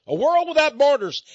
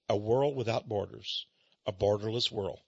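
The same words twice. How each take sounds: First: Said in the usual way. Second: Muttered disgust. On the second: Retold or imitated. Host echoing the book's phrase in quiet disgust. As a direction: repeat it low and quiet, in disbelief.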